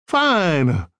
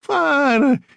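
First: Put-on a touch of an Italian accent on Fine; Fine said evenly with mild accent; light Italian accent. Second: Fine said much higher and louder; scornful Italian accent. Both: A narrator's reading. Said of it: "She had a heavy Italian accent".

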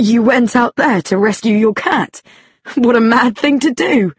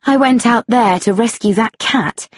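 First: Incredulous question, then exclamation; amazed. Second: Said in the usual way. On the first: A narrator's reading. Policeman to woman who rescued a cat, amazed. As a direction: react in mild astonishment. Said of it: "He was amazed". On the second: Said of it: "Patience told the man".

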